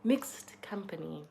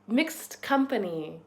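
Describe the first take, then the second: First: Whispered "Mixed company.". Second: Slow savoured phrase. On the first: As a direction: breathe "Mixed company." as a slow secret whisper. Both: Shown as a demonstration. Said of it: "new word alert".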